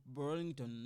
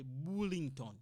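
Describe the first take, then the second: First: Burlington said the English way, r-coloured first syllable; English pronunciation. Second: Burlington said French-style, "BOO-ling-ton"; French pronunciation. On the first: Teacher showing what French speakers won't say, English Burlington. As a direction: say Burlington as "BER-ling-tən". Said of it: "I'm not gonna say Burlington". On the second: Teacher showing how French speakers say it, French Burlington. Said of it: "You see, the French person". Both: Shown as a demonstration.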